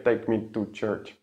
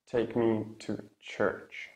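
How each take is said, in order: First: "Take me to church" with T's lacking their released puff; "take" and "to" with unaspirated T's; wrong T sound. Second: Slow "Take me to church" with crisp released T's; true T. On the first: Teacher shows what the singer doesn't say, wrong T. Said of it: "He doesn't say". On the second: Teacher models a song line slowly, true T. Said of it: "and then you release". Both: Shown as a demonstration.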